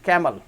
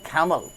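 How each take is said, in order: First: The first sound is a plain unaspirated k. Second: The first sound is a breathy aspirated kh. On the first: This is how Indian speakers say it. "सी को हम पढ़ते हैं क" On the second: This is how British speakers say it. "सी मतलब ख है"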